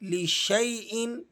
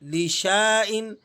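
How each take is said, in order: First: An 'ay' diphthong follows the 'sh'. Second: A long 'aa' vowel follows the 'sh'. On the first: The speaker calls it right. "शीन को आप अलिफ को छोड़ देंगे और या के साथ जोड़ देंगे" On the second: The speaker calls it wrong. "तो इस तरह से तो ये गलत है, क्योंकि अलिफ साकिन है तो आपने इसको नहीं पढ़ना।"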